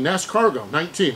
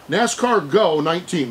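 First: The name runs together, sounding like escargot. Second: The name splits clearly into NASCAR and go. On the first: The speaker calls it wrong. "I had the S-Cargo snail thing involved there" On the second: The speaker calls it right. "maybe that's the way you say it"

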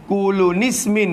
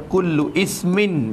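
First: An added n sound joins the two words together. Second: The second word starts separately with a glottal i. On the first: "Kulu nismin pun tak kena" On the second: "Tu jadi tak kena baca"

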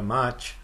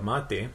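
First: The word ends with a 'ch' sound. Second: The word ends with a 't' sound.

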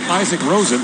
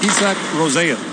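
First: The surname is said in an anglicized way. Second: The surname is said in a traditional Swedish way. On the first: The speaker calls it wrong. "so he's not Isaac Rosen" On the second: The speaker calls it right. "he's asked for the traditional Swedish pronunciation"

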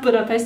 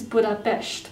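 First: The s is said as a plain s sound. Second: The s is said as an sh sound. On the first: The speaker calls it wrong. "Budapest is not Budapest" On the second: The speaker calls it right. "an S is an Esh"

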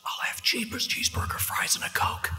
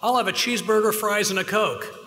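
First: It is whispered softly. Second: It is yelled loudly.

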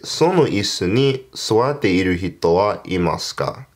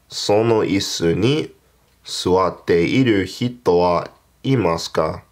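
First: It is said at normal speed. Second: It is said more slowly.

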